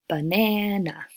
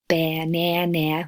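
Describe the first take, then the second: First: The unstressed vowels are reduced to schwa. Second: Every vowel is said with its full sound. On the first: "the other two, b and n, turn to schwa" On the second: "instead of banana"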